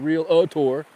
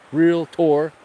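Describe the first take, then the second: First: An extra syllable is inserted before the ending. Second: No extra syllable is inserted before the ending. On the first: The speaker calls it wrong. "I didn't say real-a-tour" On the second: The speaker calls it right. "I said it right"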